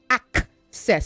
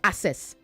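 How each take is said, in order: First: The double c sounds like k plus s. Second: The double c sounds like a single s. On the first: The speaker calls it right. "there are two C's, so say access" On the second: The speaker calls it wrong. "not access"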